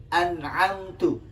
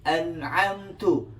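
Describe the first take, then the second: Both takes have the same delivery.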